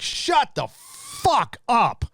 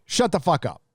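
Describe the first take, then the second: First: Drawn out, high and very slow, fed up; exasperated outburst. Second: Said in the usual way. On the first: Real, not acted. Streamer fed up with celebrity Oscar speeches, drawn-out exasperation. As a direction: stretch every word like you've had enough.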